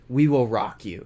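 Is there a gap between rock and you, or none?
none. Rock and you run together without a gap. The speaker calls it right. "you know how we say like"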